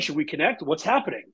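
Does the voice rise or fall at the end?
rise. The pitch rises at the end.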